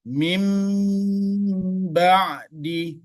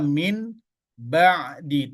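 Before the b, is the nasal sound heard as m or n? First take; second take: m; n. First: A nasal m sound comes before the b. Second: A clear n sound comes before the b. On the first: The speaker calls it right. "Jadi dibaca mim ba'di" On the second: The speaker calls it wrong. "Tidak dibaca min, ba'di"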